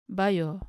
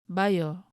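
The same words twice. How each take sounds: The two takes are said the same way.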